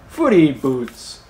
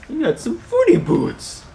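First: Slow, playful naming; playful nickname. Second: Very high, playful falsetto; goofy high-pitched teasing; silly voice. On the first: Silly nickname for the talons. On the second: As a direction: squeak it out as a silly little taunt. Playfully repeats the silly nickname. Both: Pretend.

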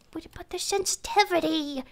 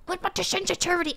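First: Said in the usual way. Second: Quick, hurried repeat; fast repeat. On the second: Real, not acted. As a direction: rattle it off fast. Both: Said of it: "repeated faster".

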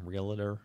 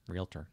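First: Realtor with an extra vowel, REEL-uh-ter; wrong pronunciation. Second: Realtor in two syllables, REEL-ter, said softly; corrected pronunciation. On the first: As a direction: slip an uh into the middle of Realtor. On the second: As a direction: quietly correct Realtor, dropping the middle vowel. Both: Shown as a demonstration. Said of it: "Did I say it wrong?".

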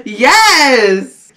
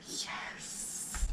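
First: Voiced, laughing exclamation; happy full-voice yes; excited yes. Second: Barely audible whispered yes; hushed, voiceless repeat. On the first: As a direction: cheer it out with a laugh. Excited yes, then whispered repeat. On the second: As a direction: whisper it like a faint echo. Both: Real, not acted.

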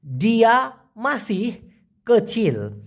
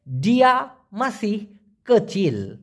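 The two takes are said the same way.

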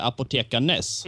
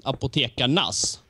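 First: "apotekarnes" said with -arnes, as it is spelled; written ending. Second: "apotekarnas" said with -arnas, the spoken way; pronounced ending. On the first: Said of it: "skrev det apotekarnes". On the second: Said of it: "de uttalade det". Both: Shown as a demonstration.

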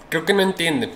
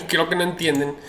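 First: Said in the usual way. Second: Said through a laugh; amused, laughing at the buyers. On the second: Real, not acted. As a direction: chuckle while repeating it.

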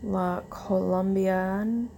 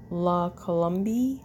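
First: La Colombian said slowly, ending in an -n; unsure brand name. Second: La Colombia said without the final n, rising at the end; corrected brand name. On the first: Unsure of the brand, she slowly tries La Colombian. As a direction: sound out La Colombian hesitantly. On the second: She goes back and reads it as La Colombia. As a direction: settle on La Colombia. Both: Real, not acted. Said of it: "or I don't know, Colombia?".

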